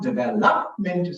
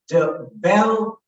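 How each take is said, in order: First: The stress is on the third syllable. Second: The stress is on the second syllable. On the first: The speaker calls it wrong. "stressing the third syllable" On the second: The speaker calls it right. "So I stress on the second syllable"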